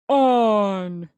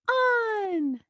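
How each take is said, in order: First: It is said in a deep, low voice. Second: It is said in a high, squeaky voice. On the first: "in a deep, low voice like this" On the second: "in a high pitched chick, chipmunk voice like this"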